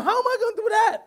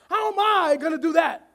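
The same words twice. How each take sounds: First: Worried believer. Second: Said in the usual way. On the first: Acted. Anxious believer voiced in sermon.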